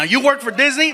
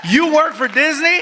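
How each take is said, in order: First: Said in the usual way. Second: Impressed disbelief. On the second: Retold or imitated. Repeated question, impressed by Disney.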